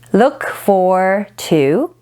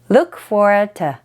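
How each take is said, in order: First: The last word is said as a full 'to'. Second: The last word is reduced to a short 't'. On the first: "to ... is often pronounced as t"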